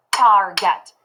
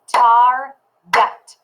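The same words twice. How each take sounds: First: Said in the usual way. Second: Target split into tar and get, slow and a bit louder; clapped syllables. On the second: Shown as a demonstration. Teacher clapping target syllables for the class. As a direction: clap out target beat by beat. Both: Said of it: "If we syllable clap it".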